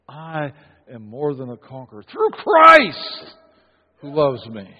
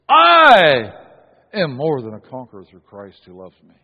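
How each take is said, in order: First: The word "Christ" carries the strongest stress. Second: The word "I" carries the strongest stress. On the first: The greatness comes from someone else. The speaker calls it right. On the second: The speaker's own greatness is the point. The speaker calls it wrong.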